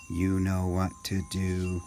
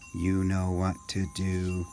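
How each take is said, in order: First: It is said in a robot voice. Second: The same.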